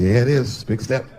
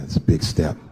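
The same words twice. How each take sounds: First: Said in the usual way. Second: Low-pitched voice of a confiding friend; friend's voice. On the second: Acted. Groom confides in married friend, low-pitched. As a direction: drop well down for the friend's line. The friend's line in acted dialogue.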